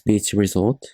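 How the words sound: It is pronounced with English sounds. "So in English, it's beach resort"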